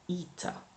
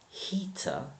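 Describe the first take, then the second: First: The word begins without an H sound. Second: The word begins with an H sound.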